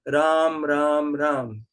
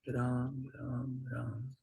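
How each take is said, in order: First: It is said fairly loudly. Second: It is said softly and quietly.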